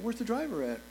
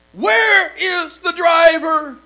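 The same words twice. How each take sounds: First: Softer, restrained request; polite, toned down. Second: High, slow, shouted demand; angry shout. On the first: Preacher correcting himself to the polite version he really used. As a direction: say it the nice way, holding back. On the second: Preacher hamming up his call to the hotel, shouting. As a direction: bellow it down the phone. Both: Shown as a demonstration. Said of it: "Didn't say it like that".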